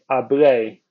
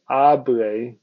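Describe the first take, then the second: First: The stress is on the last syllable. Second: The stress is on the first syllable.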